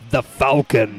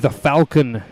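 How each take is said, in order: First: It is said in a dramatic put-on voice. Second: It is said in the speaker's normal voice.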